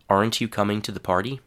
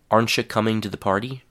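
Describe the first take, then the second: First: 'Aren't you' is said as two full words. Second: 'Aren't you' is blended into 'arncha'. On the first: "a whole sentence with a full, unreduced form" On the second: "a whole sentence containing the reduced form"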